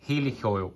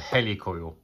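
First: It is said the American way. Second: Its first part sounds like helicopter. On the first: The speaker calls it wrong. "in America, they call them helicoils" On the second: The speaker calls it right. "as in helicopter"

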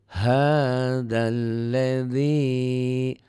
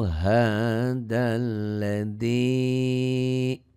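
Both takes have the same delivery.

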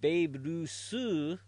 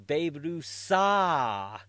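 First: The name ends with an 'oo' vowel. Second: The name ends with an 'ah' vowel. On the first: The speaker calls it right. "even saying Babe Rusu" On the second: The speaker calls it wrong. "Where'd the U go?"

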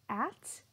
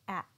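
First: The final T is clearly released. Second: The final T is cut off in the throat. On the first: "you heard me pronounce that T sound. That's the true T sound" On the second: "if I were to say it with a stop T, it would sound like at"

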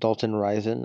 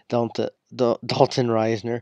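First: The surname is said as two syllables, Risen. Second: The surname is said with an added n, Risner. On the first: The speaker calls it wrong. "which I mispronounced his name. I call him Dalton Risen" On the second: The speaker calls it right. "but Dalton Risner"

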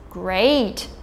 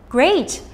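First: The word is said with a sarcastic, annoyed tone. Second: The word is said with a pleased, happy tone. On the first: The speaker is annoyed. "using sarcasm to indicate that the speaker is annoyed" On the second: The speaker is pleased. "indicating that the speaker is pleased"

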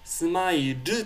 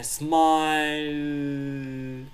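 First: The word ends with a clear extra vowel. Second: The final vowel is tiny and fades away. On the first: The speaker calls it wrong. "smile って言わないですね" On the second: The speaker calls it right. "ちっちゃいu が…残るか残らないかぐらい…消えていく感じ"

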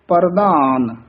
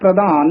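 First: The r sound is fully pronounced. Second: The r sound is weak or missing. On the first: The speaker calls it right. "ਰਾਰਾ ਪੂਰਾ ਬੋਲਣਾ ਹੈ" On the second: The speaker calls it wrong. "ਪ੍ਰਧਾਨ ਨਹੀਂ ਕਹਿਣਾ ਹੈ"

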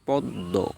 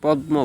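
First: The middle is pronounced as a doubled d. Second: The middle is pronounced as d followed by m. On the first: The speaker calls it right. "ম উচ্চারিত না হয়ে দ্বিত্ব উচ্চারিত হয়" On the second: The speaker calls it wrong. "অনেকে পদ্ম বলেন"

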